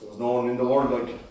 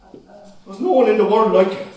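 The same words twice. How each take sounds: First: Low, soft remembering; quiet longing. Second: Higher, louder cry of grief; anguished outcry. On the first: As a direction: murmur it, lost in memory. Quiet first take. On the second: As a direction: cry it out at him. Son's outburst at father. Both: Acted.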